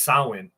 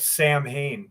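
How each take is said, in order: First: It is said differently from its spelling. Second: It is said as spelled, like two words. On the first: The speaker calls it right. "but it's pronounced Samhain" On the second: The speaker calls it wrong. "the band would call themselves Sam Hain"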